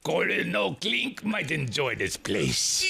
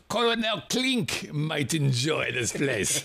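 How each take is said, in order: First: A light mock German accent, slow; mild German accent, lightly done. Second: A light mock German accent, slow. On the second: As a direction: Colonel Klink German accent, lightly done. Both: Shown as a demonstration. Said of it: "That was my best, uh, accent".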